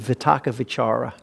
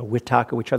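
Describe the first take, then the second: First: The words begin with a V sound. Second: The words begin with a W sound. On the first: This is the international standard Pali pronunciation. "with a V" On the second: This is how Burmese speakers pronounce Pali. "Sometimes you'll hear it with a W instead of V"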